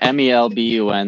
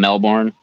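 First: The R sound in the name is dropped. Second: The R sound in the name is pronounced. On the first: The speaker calls it right. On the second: The speaker calls it wrong.

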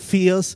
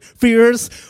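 First: The word is said in a non-American accent. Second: The word is said in an American accent.

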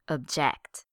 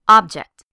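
First: The stress is on the second syllable. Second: The stress is on the first syllable.

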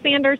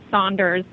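First: The first vowel sounds like 'an' in 'sand'. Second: The first vowel sounds like 'awn' in 'sauna'. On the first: "some of them pronounce their name Sanders" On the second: "some pronounce it Saunders"

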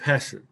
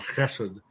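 First: The word begins with a plain h sound. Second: The word begins with a harsh guttural sound.

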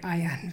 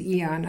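First: The word begins with an "eye" sound. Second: The word begins with an "ee" sound. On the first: "Otherwise, I would say ion" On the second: "which is how I would read it as eon"

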